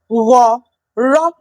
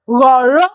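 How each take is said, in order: First: The word is said slowly, syllable by syllable. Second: The word is said at normal speed.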